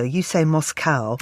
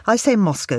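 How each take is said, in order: First: "Moscow" said as MOSS-cow, slowly; Moscow, other way. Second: "Moscow" said as MOSS-coe, English way; Moscow, American way. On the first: Host teasing the other's version, "Moscow" as MOSS-cow. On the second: Host quizzing her co-host, "Moscow" as MOSS-coe. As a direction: say "Moscow" ending in a coe sound. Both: Shown as a demonstration. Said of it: "How do they say it".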